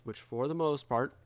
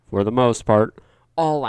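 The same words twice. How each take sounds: First: Said in the usual way. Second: "for the most part" shouted much louder; "for the most part" punched out loud; loud emphasis. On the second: Real, not acted. Repeats the phrase louder.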